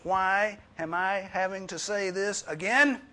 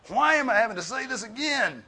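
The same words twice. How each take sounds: First: High, loud, slow exasperated parent. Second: Much higher, loud fed-up parent; exasperated parent. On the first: Preacher imitating a parent scolding kids, loud and exasperated. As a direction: nag like a fed-up mom. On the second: Preacher mimicking a fed-up parent, high and loud. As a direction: really let the exasperation out. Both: Retold or imitated. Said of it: "You ever said that to your children".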